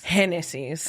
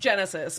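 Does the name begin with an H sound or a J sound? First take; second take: H sound; J sound. First: The name begins with an H sound. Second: The name begins with a J sound. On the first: This is how her Latina mother says the name. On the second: This is how Americans say the name.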